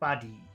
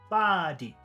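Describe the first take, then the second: First: The first vowel is short, the second long. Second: The first vowel is long, the second short. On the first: "If we did short long, it would sound like this" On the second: "If we did long and short, it would sound like number three"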